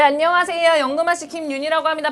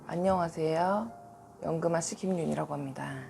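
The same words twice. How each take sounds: First: The greeting is said in her usual lively voice. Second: The greeting is said in a lowered, subdued voice.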